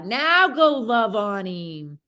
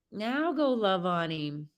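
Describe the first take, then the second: First: Slow coaxing. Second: Soft repeat. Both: Shown as a demonstration.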